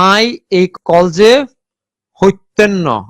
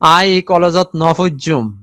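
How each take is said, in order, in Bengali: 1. এটি নোয়াখালীর আঞ্চলিক উচ্চারণে বলা। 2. এটি চট্টগ্রামের আঞ্চলিক উচ্চারণে বলা। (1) "নোয়াখালী অঞ্চলে" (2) "চট্টগ্রাম অঞ্চলে যারা বাস করে তারা বলবে"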